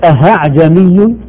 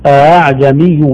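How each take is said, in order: First: The hamza turns into a clear h sound. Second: The hamza is softened, between hamza and alif. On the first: The speaker calls it wrong. "لا نقول أهعجمي" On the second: The speaker calls it right. "أعجمي بين الهمزة وبين الألف"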